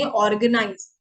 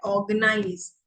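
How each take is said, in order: First: ऑर्गेनाइज with the R sounded, as written; read as spelt. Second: ऑर्गेनाइज with a long "aw" and no R; silent R. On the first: Teacher showing how learners would normally read it, R sounded. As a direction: read ऑर्गेनाइज with every letter, R included. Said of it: "अगर मैं इसको normally पढूं". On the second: Teacher giving the actual pronunciation, R left silent. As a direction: drop the R from ऑर्गेनाइज. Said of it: "actual में जो इसकी pronunciation". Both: Shown as a demonstration.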